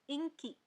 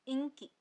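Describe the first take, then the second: No difference in how they are said.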